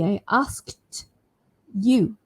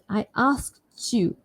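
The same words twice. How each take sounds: First: There is a pause between asked and you. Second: The t and y merge into a ch sound. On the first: "If I paused in between" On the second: "Can you hear the ch sound?"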